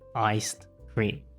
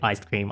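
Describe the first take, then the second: First: A d sound is pronounced before cream. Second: Said quickly with no d sound. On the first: "originally iced cream" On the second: "saying it quickly"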